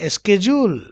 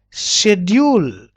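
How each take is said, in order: First: SCHEDULE as "SKE-jool"; American pronunciation. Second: SCHEDULE as a slow "SHED-yool"; British pronunciation. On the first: Teacher contrasting American schedule with British, "ske-jool". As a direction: start SCHEDULE with sk, end "jool". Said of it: "but in American". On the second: Teacher modelling British schedule, slow "shed-yool". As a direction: stretch SCHEDULE slowly, without a k. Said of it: "but in British". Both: Shown as a demonstration.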